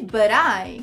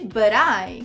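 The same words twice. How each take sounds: First: The two words are joined into one sound. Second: The two words are joined into one sound.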